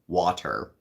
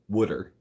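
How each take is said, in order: First: It is said in a plain, unaccented way. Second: It is said in a Philadelphia accent.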